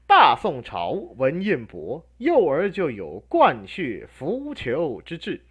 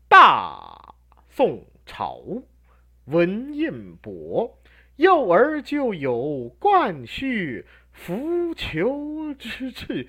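First: It is read slowly but still like natural speech. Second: It is dragged out so slowly it sounds unnatural. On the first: The speaker calls it right. "这句是慢的" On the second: The speaker calls it wrong. "慢到不说人话那不行"

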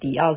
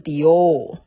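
First: The second syllable ends in an 'ao' vowel. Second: The second syllable ends in an 'ou' vowel. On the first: The speaker calls it wrong. "不要念成迪奥" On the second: The speaker calls it right. "是迪欧"

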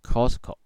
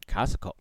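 First: The first vowel sounds like the letter O. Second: The first vowel sounds like the letter R. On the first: The speaker calls it wrong. "不要再念成Costco" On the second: The speaker calls it right. "这个O 的发音是R，不是O 哦，要念成Costco"

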